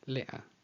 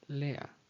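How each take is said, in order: No difference in how they are said.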